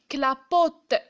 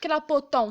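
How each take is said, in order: First: The word ends in a plain 'uh' vowel. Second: The word ends in a nasal 'on' vowel. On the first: The speaker calls it right. "c'est le son E" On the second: The speaker calls it wrong. "Je vais pas dire clapoton"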